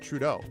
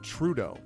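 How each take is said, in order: First: The stress is on the second syllable. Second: The stress is on the first syllable. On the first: This is the American way of saying the name. "I would pronounce it Trudeau" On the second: This is the Canadian way of saying the name. "emphasis on the first syllable of his last name"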